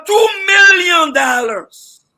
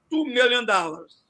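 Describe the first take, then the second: First: Much louder, higher and very slow, each word hit hard; emphatic outcry. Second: Said in the usual way. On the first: Real, not acted. Panelist shouting the wasted total at the host. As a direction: make the sum sound scandalous.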